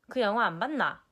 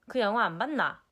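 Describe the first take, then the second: No difference in how they are said.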